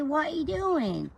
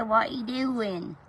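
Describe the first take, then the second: First: Put-on higher, slow sing-song baby talk; drawn out like cooing to a pet. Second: Put-on baby voice. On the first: Woman voices her pet in baby talk. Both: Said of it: "baby voice to their pets".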